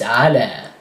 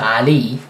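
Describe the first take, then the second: First: The word ends with an 'a' sound. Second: The word ends with an 'ee' sound. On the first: The speaker calls it right. "it's ala, as if there is an alif instead of a ya" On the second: The speaker calls it wrong. "don't say it's not Ali"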